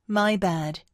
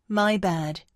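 The two takes are said the same way.

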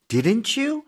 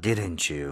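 First: The voice rises at the end. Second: The voice falls at the end.

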